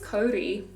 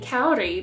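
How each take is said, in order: First: It uses Māori-style vowels. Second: It uses English-style vowels. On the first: The speaker calls it right. "I guess it's Cody" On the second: The speaker calls it wrong.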